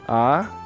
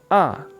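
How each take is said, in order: First: The pitch rises from middle to high. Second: The pitch drops sharply from high to low. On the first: "Nada dua, erseng" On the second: "Nada empat, seseng"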